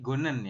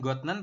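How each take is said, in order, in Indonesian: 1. Konsonan di tengah adalah bunyi n. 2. Konsonan di tengah adalah bunyi t. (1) "tapi Gonen ya" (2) "bukan Gotnen"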